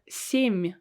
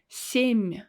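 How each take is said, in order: Both takes have the same delivery.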